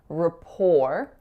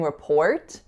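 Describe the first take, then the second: First: The final T sound is left out entirely. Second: The final T sound is clearly pronounced. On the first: The speaker calls it right. "the T is totally silent, rhymes with the number four" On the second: The speaker calls it wrong. "So we're not saying report"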